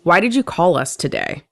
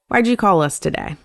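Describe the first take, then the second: First: It is said in an aggressive, accusatory tone. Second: It is said in a nice, relaxed tone. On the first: The asker is belittling the person for calling. The speaker calls it wrong. "in a much more aggressive, accusatory manner" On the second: The asker just wants to know the reason for the call. The speaker calls it right. "if I'm saying it in a nice way"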